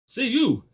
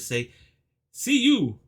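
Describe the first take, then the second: First: It is said as two syllables. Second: It is said as three syllables. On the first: The speaker calls it wrong. "It's not say you" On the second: The speaker calls it right. "so I pronounce it say see you"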